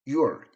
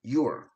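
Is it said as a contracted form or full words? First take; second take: contracted; contracted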